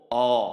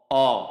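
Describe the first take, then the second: First: The vowel is a rounded 'o' sound. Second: The same.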